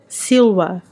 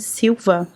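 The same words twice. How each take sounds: First: The consonant after 'sil' is a W sound. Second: The consonant after 'sil' is a V sound. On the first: The speaker calls it right. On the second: The speaker calls it wrong.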